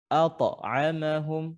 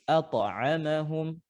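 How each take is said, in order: Both takes have the same delivery.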